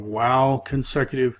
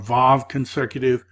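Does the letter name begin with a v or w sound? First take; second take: w; v. First: The letter name begins with a w sound. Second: The letter name begins with a v sound. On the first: This is the more ancient pronunciation. "The wow is probably the more ancient way to do it" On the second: This is the modern pronunciation. "Vav is the modern way people pronounce this letter"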